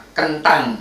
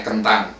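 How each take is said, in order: First: Javanese "kentang" with a stressed T, pitched up; higher Javanese-accented "kentang". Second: Said in the usual way. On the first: Shown as a demonstration. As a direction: say "kentang" as a Javanese speaker, leaning on the T. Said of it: "Kalau orang Jawa bukan kentang". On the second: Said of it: "Kalau orang Indonesia".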